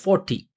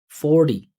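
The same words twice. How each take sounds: First: The t is a hard, released t. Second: The t is a soft flap like d. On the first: The speaker calls it wrong. "instead of forty" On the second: The speaker calls it right. "kept that vibration, say forty, forty, D, D, D"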